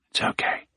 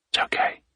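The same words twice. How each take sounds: First: Whispered, stress on okay; whispered reassurance. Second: Whispered, stress on its; whispered reassurance. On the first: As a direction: whisper "It's okay", leaning on okay. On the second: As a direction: whisper "It's okay", leaning on It's. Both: Acted. Soothing frightened dog.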